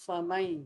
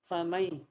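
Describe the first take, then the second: Both takes have the same delivery.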